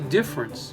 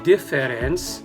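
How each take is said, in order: First: A middle syllable is dropped from the word. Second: Every syllable of the word is pronounced fully. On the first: The speaker calls it right. "He said the difference" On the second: The speaker calls it wrong. "he didn't say the difference"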